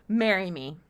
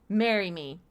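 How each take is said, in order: No difference in how they are said.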